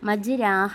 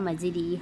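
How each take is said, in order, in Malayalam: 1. r-ന് ശേഷമുള്ള സ്വരം നീണ്ട 'a' ആണ്. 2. r-ന് ശേഷമുള്ള സ്വരം നീണ്ട 'ee' ആണ്. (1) "മജ്രാഹ എന്ന് ഉച്ചരിക്കുന്നില്ല" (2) "മജ്രീഹ എന്ന് ഉച്ചരിക്കുന്നില്ല"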